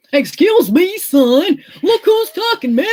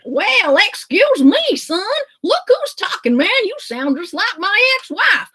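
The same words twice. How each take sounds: First: Put-on Texan accent. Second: Put-on a cowboy hamming it up in a Texan accent. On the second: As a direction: go big and twangy with a Texas accent. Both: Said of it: "my amazing Texan accent".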